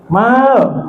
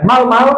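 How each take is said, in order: First: The vowel in the syllable is lengthened. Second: The vowel in the syllable is short. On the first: It sounds like the word for handsome. The speaker calls it right. "Ada panjangnya sedikit" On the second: It sounds like the word for camel. The speaker calls it wrong. "jangan dipanggil pendek ya Bu. Jangan mal mal, onta onta"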